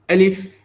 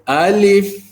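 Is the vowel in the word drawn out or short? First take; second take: short; drawn out. First: The vowel is short and quick. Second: The vowel is drawn out long. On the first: The speaker calls it right. "Alif begitu saja" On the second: The speaker calls it wrong. "Jangan baca alif, ah tak mau begitu"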